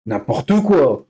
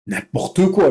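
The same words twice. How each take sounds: First: N'importe quoi stretched out slowly, quoi falling; slow exasperated N'importe quoi; slow dismissive drawl. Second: Said in the usual way. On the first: Shown as a demonstration. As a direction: drag out N'importe quoi in disbelief.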